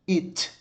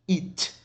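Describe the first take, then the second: No difference in how they are said.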